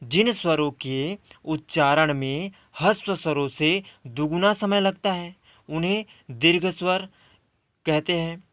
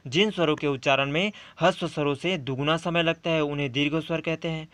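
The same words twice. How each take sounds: First: Said in the usual way. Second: Definition rattled off quickly and quieter; brisk dictation-style repeat; fast, softer recap. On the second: Shown as a demonstration. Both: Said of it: "तो हमारा दूसरा आता है".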